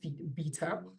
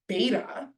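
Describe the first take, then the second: First: It is pronounced the South African way. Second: It is pronounced the American way. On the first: "we call it beta" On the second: "as the Americans say"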